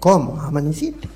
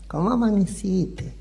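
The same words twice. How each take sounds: First: It is asked in a cold, annoyed tone. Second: It is asked in a sweet, affectionate tone.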